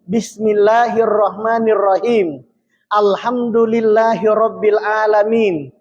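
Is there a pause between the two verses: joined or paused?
paused. There is a pause between the two verses. "Kita membaca dengan taus"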